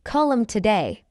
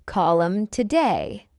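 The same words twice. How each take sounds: First: Quick, linked "Call 'em today"; fast English. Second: Slow, measured "Call 'em today"; slow model. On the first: Teacher trains learners' ears, fast. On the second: Teacher models the phrase for learners first, slowly. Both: Shown as a demonstration. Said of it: "fast English is not difficult".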